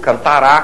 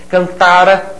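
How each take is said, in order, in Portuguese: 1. A tônica cai na última sílaba. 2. A tônica cai na sílaba do meio. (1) "Se fosse tônico, seria futuro" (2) "O R A, átono"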